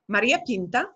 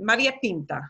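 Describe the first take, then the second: First: The voice rises at the end. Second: The voice falls at the end.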